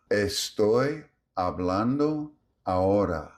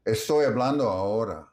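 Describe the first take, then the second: First: "Estoy hablando ahora" word by word, every vowel full; even, stable vowels. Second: Said in the usual way. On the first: Shown as a demonstration. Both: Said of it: "The rhythm is even".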